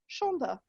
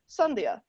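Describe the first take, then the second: First: The name is given its Bengali pronunciation. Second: The name is given its Hindi pronunciation. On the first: "actually pronounced Shonda" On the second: "in Hindi, is pronounced Sandhya"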